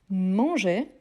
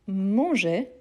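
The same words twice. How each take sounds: The two takes are said the same way.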